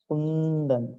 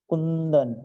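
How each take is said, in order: Both takes have the same delivery.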